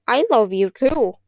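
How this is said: It is said in a wet, gurgly voice.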